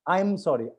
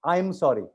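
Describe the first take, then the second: Both takes have the same delivery.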